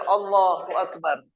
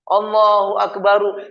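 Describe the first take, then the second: First: The final r ends with no vowel. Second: The final r is followed by a vowel. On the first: The speaker calls it right. "Maka sifatnya lepas saja" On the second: The speaker calls it wrong. "Juga tidak boleh dikasih fathah, dhammah"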